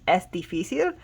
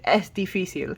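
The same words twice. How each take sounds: First: The voice rises at the end, like a question. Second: The voice falls at the end, like a statement. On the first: It asks whether something is difficult. "you make it into a question with your voice" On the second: It states that something is difficult. "to say it is difficult, you just say"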